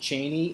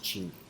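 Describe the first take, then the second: First: The name is said the widely used way. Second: The name is said the family's own way. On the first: This is how the public says it. "everybody calls it Cheney" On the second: This is how his family says it. "the pronunciation in my family is Cheney"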